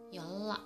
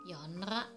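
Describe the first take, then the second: First: The middle consonants sound like a double l. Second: The middle consonants sound like n and r. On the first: The speaker calls it right. "yang benar pengucapannya ada yolla" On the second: The speaker calls it wrong. "harusnya dibaca yonra"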